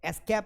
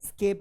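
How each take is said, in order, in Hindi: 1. शब्द 'e' स्वर से शुरू होता है। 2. शब्द सीधे 'sk' से शुरू होता है। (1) "एस्केप नहीं बेटा" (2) "स्केप है"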